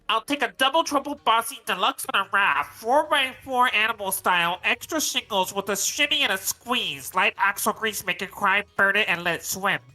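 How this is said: It is read in a Bubble Bass impression.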